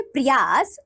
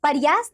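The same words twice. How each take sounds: First: प्रयास with "pr" joined; correct प्रयास. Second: प्रयास with a vowel splitting "pr"; mispronounced प्रयास. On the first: Teacher giving children the right form, correctly pronounced. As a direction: say प्रयास carefully as "prayaas". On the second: Teacher showing children a wrong form, mispronounced. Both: Shown as a demonstration. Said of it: "नहीं".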